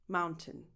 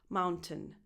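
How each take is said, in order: The two takes are said the same way.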